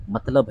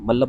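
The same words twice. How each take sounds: First: मतलब with the 't' sounded, 'mat-lab'; correct pronunciation. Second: मल्लब as 'mal-lab', no 't'; slurred mispronunciation. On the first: Teacher gives students the right form, correct pronunciation. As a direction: give मतलब a clear त before the ल. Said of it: "इसका जो सही उच्चारण है". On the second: Teacher repeats what some people say, slurred mispronunciation. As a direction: swallow the त and double the ल in मल्लब. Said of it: "क्या बोल देते हैं?". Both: Shown as a demonstration.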